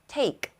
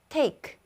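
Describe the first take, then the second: The two takes are said the same way.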